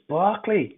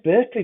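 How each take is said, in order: First: The first syllable sounds like 'bar'. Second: The first syllable sounds like 'ber'. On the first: The speaker calls it right. "It's Barkley" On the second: The speaker calls it wrong. "I said Berkeley then"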